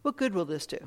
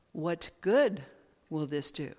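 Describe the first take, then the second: First: "what" leaned on, then the rest falls away; emphasis on "what", downward tune; stress on WHAT. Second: Emphasis moved to "good", tail trailing off; stress on GOOD. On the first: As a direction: hit the word "what" first. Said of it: "it's kind of where you put the emphasis". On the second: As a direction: lean hard on "good". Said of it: "A different emphasis". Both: Shown as a demonstration.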